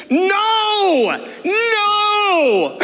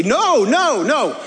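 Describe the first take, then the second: First: Yelling reenacted. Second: Loud retold no. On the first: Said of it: "And so this is me". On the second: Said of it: "And I loudly say".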